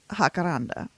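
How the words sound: It is said with a Spanish pronunciation. "in Spanish, it definitely is"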